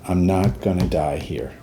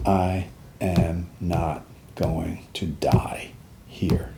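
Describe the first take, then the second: First: Said in the usual way. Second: Very slow, hushed and low; whispered vow. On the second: Retold or imitated. Soldier making a promise to himself, slow whispered vow.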